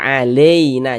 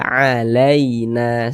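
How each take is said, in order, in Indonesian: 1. Vokal tengah condong ke 'i' yang biasa. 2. Vokal tengah adalah peluncuran 'ai' yang dilunakkan. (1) "jangan sampai condong ke i, jangan dibaca alaina" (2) "dilunakkan, tapi dibaca alaina seperti itu"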